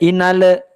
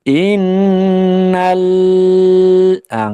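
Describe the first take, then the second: First: The L is released with an extra bounce. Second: The L is held too long and hums. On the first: "Jangan sampai inale" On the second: "Juga jangan sampai terlalu lama ya, jadinya mendengung L-nya. Innal ah nggak boleh"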